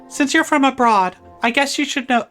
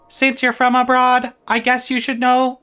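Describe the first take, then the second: First: It is read in a plain, natural voice. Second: It is read in a put-on robotic voice.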